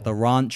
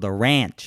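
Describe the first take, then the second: First: The word is said in a non-American accent. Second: The word is said in an American accent.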